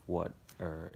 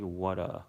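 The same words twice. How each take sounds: First: "what or" run together as water with an American r; "what or" as water with a rhotic ending. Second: "what a" run together as water with no final r; r-less "water". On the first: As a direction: say "what or" as water, curling the final r. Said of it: "how to sound American". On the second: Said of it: "instead of". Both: Shown as a demonstration.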